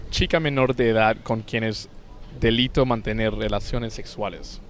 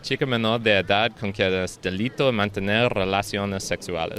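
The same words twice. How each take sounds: First: Fluent Spanish pronunciation; Spanish accent, demonstrated. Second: Spanish in an off, English-sounding accent; odd-accented Spanish. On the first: Shown as a demonstration. Showing co-host how to say it, Spanish accent. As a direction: show how the Spanish should sound, tapped r and pure vowels. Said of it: "I would say it as". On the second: Real, not acted. Taking own turn at the Spanish phrase, foreign-accented Spanish. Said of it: "what accent you have in Spanish".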